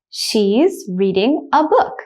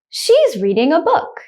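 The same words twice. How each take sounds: First: The sentence is spoken slowly. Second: The sentence is spoken at normal speed. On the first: "The first time I will say it slowly" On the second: "The second time I will say it at a normal speed, like a native speaker"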